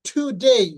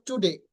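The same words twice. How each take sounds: First: Today ending in a gliding "dei"; correct today. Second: Today ending flat "de"; wrong today. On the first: Teacher models correct today for students. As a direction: glide the end of today. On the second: Teacher shows the wrong today to avoid. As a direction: say today as the common mistake. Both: Shown as a demonstration. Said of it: "not today".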